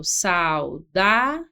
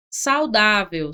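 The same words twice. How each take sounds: First: Saudável very slow with a rising end; teacher repeating saudável slowly, rising; slow rising demo. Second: Saudável said slowly with a falling end; teacher demonstrating saudável slowly; slow demo. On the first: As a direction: draw saudável out, lifting at the end. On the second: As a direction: stretch saudável out for the class. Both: Shown as a demonstration.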